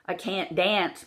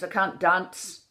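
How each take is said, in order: First: Said in the usual way. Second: "can't dance" as "cahnt dahnce"; Irish short A. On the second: Shown as a demonstration. Coach showing the changed vowel, "dance" as "dahnce". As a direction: open "can't" and "dance" toward "ah". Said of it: "becomes I can't dance".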